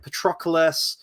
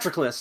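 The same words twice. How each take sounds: First: The name is said slowly and fully. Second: The name is said quickly and clipped. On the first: The speaker calls it right. "I listened to the audiobook" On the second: The speaker calls it wrong. "in the movie they say like ... really quick"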